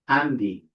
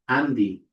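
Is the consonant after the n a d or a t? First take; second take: d; d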